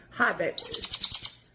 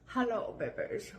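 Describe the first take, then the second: First: Low, slow, breathy hi babies; deep voice. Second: Said in the usual way. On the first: Real, not acted. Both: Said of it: "I like it when you do your deep voice".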